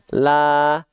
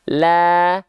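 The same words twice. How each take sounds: First: The vowel is said without open, smiling lips. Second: The vowel is said with open, smiling lips. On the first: The speaker calls it wrong. "kalau dia dilafalkan tidak buka mulut sambil senyum" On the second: The speaker calls it right. "kalau sambil senyum"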